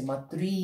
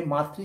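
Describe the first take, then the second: First: মাতৃ with the final "ri" held long; emphatic long ending. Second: Said in the usual way. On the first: Shown as a demonstration. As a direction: lean on the drawn-out end of মাতৃ. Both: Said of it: "জোর দিয়ে বলা হচ্ছে".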